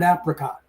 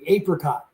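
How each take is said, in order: First: It uses the Americanized pronunciation. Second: It uses the older English pronunciation. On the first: "an Americanized version of the word apricot" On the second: "an older English way of saying apricot"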